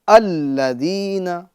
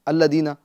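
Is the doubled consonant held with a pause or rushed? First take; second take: held; rushed. First: The doubled sound is held and pressed with a pause. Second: It is said quickly without holding the doubled sound. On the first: The speaker calls it right. "बल्कि अल्लदीना / थोड़ा रुक कर, दो मर्तबा, जोर डालकर" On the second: The speaker calls it wrong. "जल्दी नहीं पढ़ेंगे"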